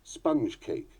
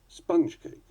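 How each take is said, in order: First: It uses the British stress pattern. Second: It uses the American stress pattern. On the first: "Those are the more usual accents in British English" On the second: "That is how they are said in America"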